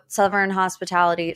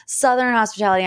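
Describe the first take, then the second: First: Southern said as suvern, th turned into v. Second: Southern said with a clear th, suthern; correct Southern. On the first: Naming a reality show, Southern said with an F sound. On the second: Correcting herself on the show name, proper th. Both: Shown as a demonstration. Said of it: "I keep saying it with an F".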